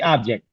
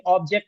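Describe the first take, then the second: First: The first vowel is an open 'ah' sound. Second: The first vowel is a rounded 'oh' sound. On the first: The speaker calls it right. "अलिफ की sound देनी है। आब" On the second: The speaker calls it wrong. "कभी भी ऑब्जेक्ट नहीं, ओ की sound नहीं देनी"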